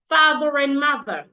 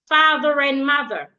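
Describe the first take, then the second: First: The R links into the next word. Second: The same.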